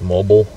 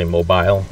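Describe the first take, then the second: First: "mobile" rhyming with noble; short-ending mobile. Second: "mobile" ending like "bile"; long-i mobile. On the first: Streamer comparing how people say a word, "mobile" as MOH-bul. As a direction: say "mobile" as MOH-bul, second syllable reduced. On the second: Streamer showing what some people say, "mobile" as MOH-bile. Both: Shown as a demonstration. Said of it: "Some people say mobile".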